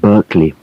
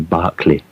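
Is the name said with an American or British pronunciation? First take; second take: American; British. First: The name is said with an American pronunciation. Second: The name is said with a British pronunciation. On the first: "in America they pronounce it Berkeley" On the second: "in England we uh, say Barclay"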